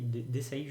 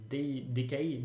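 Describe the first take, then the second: First: "decay" prononcé « dé-saï », avec un s; unsure "decay", said "deh-SIGH" with an s sound; prononciation hésitante. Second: "decay" prononcé « dé-kaï », avec un k; unsure "decay", said "deh-KYE" with a hard k; prononciation hésitante. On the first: (« decay » hésitant, dit « dé-saille ») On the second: (« decay » hésitant, dit « dé-kaille ») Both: Real, not acted. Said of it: "je sais pas du tout comment ça se dit".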